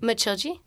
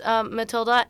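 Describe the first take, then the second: First: The name has a Portuguese pronunciation. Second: The name has an English pronunciation. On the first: The speaker calls it right. "how do you say the name?" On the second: The speaker calls it wrong. "pronounced Matilda in the play by people who don't know how to pronounce it"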